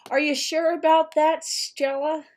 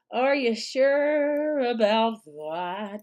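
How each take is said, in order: First: High, raised-voice taunting question; mock questioning. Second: Very slow, stretched-out taunting question; drawn-out mock doubt. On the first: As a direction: challenge her with a higher, teasing voice. Mock challenge aimed at Stella. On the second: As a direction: drag out SURE and ABOUT mockingly.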